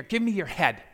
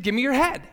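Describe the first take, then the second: First: Said in the usual way. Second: Higher, louder repeated demand; raised-pitch insistence, retold; insistent repeat. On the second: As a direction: say it firmly for someone who didn't get it. Repeats request after baffled question.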